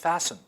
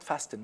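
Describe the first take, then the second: First: The t sound is silent. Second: The t sound is pronounced. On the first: The speaker calls it right. "No, it's fasten" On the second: The speaker calls it wrong. "We cannot fasten"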